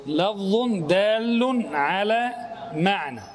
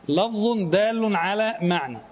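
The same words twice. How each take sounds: First: Slowly, word by word, for the students to write down; slow dictation. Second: Said in the usual way. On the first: Shown as a demonstration. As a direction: dictate it deliberately, stressing دال. (إملاء بطيء كلمة كلمة مع الضغط على دال)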